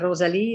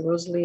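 First: The name is said with a French pronunciation. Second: The name is said with an English pronunciation. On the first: "So what I say in French is I say Rosalie" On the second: "or in English I say just say Rosalie"

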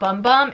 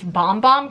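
First: The vowel sounds like the one in 'bum'. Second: The vowel sounds like the one in 'bomb'. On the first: The speaker calls it wrong. "it's actually not Bum Bum" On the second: The speaker calls it right. "It's Bomb Bomb cream"

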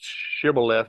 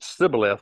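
First: The word begins with an sh sound. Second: The word begins with an s sound. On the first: "pronounced shibboleth with a sh" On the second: "pronounced it sibboleth with a s sound"

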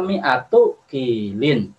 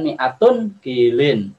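First: The first word ends without an n sound. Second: The first word ends with an n sound. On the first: The two words form one possessive compound. The speaker calls it right. "Dibaca mi'atu kilin" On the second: The two words are not a possessive compound. The speaker calls it wrong. "Bukan mi'atun kilin"

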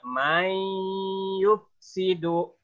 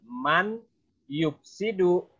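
First: The n merges into y with a held nasal. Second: The n is pronounced clearly without a nasal hold. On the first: The speaker calls it right. "tapi mai, kita tahan sepanjang 2 rakaat" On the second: The speaker calls it wrong. "bukan man yufsidu"

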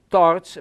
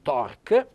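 First: The final consonant is a soft ch sound. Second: The final consonant is a hard k sound. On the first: The speaker calls it right. "si pronuncia una C, diciamo dolce" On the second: The speaker calls it wrong. "non torc"

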